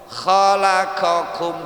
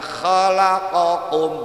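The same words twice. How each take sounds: First: Both consonants are the plain k sound. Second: Both consonants are the deep q sound. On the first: "dua-duanya kaf" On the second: "bukannya khalaqakum, berarti dua-duanya qaf"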